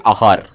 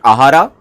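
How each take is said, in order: First: The word ends without a final vowel. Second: The word ends with a sounded final vowel. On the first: The speaker calls it right. "The last A is silent" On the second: The speaker calls it wrong. "In South, people usually pronounce it Ahara"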